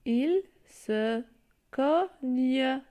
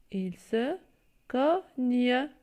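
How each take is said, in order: First: Cogne with the final e sounded, co-gne-e; teacher stressing cogne; syllable reading. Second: Cogne again with the final e sounded; teacher repeating cogne; syllable reading. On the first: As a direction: say cogne loud and clear for the class. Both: Shown as a demonstration. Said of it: "Je lis".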